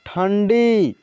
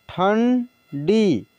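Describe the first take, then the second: First: Said in the usual way. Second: ठंडी drawn out very slowly, sound by sound; slow classroom dictation of ठंडी; slow spelled-out reading. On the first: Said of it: "teacher says word normally". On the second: Shown as a demonstration. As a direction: stretch ठंडी slowly for the learners. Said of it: "teacher reads word slowly".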